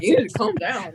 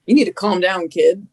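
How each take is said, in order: First: Half-laughing quote of the order; laughing retell. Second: Mock stern, louder command; a hint of a firm order to calm down. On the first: Retold or imitated. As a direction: repeat it through a laugh. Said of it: "He's like". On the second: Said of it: "grabs me by the shoulders and goes".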